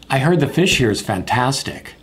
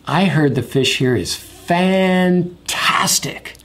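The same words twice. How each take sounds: First: The sentence moves at a plain, natural pace. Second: The sentence is stretched out with lively excitement. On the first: "More at a natural pace" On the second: "really stretch it out even more to sound interesting, fun, exciting"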